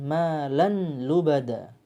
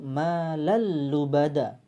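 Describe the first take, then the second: First: The n is pronounced before the l. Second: The n merges into a doubled l. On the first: The speaker calls it wrong. "bukan malan lubada" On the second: The speaker calls it right. "Langsung malal lubada"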